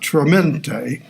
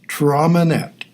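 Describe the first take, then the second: First: The word is pronounced in an Italian-sounding way. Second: The word is pronounced in a plain English way. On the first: The speaker calls it wrong. "giving it an Italian pronunciation" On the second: The speaker calls it right. "it's Traminette"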